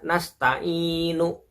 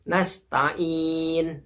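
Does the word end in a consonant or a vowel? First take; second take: vowel; consonant. First: The word ends with an added u vowel. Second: The word ends on a silent final n. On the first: The speaker calls it wrong. "bukan dibaca nasta'inu" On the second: The speaker calls it right. "huruf nunnya yang diakhirin dimatikan"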